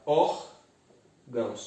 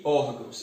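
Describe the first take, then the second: First: ÓRGÃOS slowly split, ór-gãos; syllable by syllable. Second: Said in the usual way. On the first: Shown as a demonstration. Teacher separating the word for students, ÓRGÃOS in two slow syllables. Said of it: "eu separo". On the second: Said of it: "eu separo órgãos".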